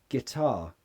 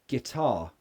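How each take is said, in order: Both takes have the same delivery.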